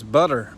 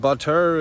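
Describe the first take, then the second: First: The middle consonant is a quick tap. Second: The middle consonant is a full T sound. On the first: The speaker calls it right. "like that kind of tap D, T sound" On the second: The speaker calls it wrong. "It's not butter"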